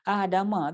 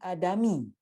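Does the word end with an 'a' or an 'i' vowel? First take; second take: a; i. First: The word ends with an 'a' vowel. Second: The word ends with an 'i' vowel. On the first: The speaker calls it right. "tak boleh baca dengan baris bawah, kena baca baris atas" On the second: The speaker calls it wrong. "Tapi kita tak boleh baca Adami"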